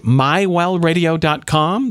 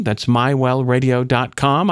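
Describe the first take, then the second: First: Slow and higher, each word set apart; slow, emphatic address. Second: Said in the usual way. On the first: Shown as a demonstration. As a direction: say the address slowly so it sticks.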